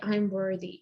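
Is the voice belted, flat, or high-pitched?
flat. It is said flatly, without feeling. The speaker does not feel worthy. The speaker calls it wrong. "If you just say"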